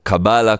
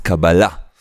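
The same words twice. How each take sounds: First: The stress falls before the last syllable. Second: The stress falls on the last syllable. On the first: The speaker calls it wrong. "como la gente dice" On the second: The speaker calls it right. "acento en la última A"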